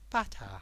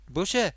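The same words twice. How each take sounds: First: It is said in a learner's English accent. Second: It is said in a local Midlands accent. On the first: "like a lot of people that learn English, they say" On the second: "people around here say butter"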